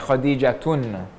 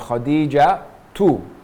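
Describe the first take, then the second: First: The name ends in 'tun' with an n. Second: The name ends in 'tu' without an n. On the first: The speaker calls it wrong. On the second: The speaker calls it right.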